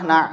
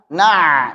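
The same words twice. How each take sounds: First: The ain is articulated too weakly. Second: The ain is pressed very hard. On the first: "Jangan pula terlalu lemah" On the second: "Jangan terlalu ditekan. Na, salah"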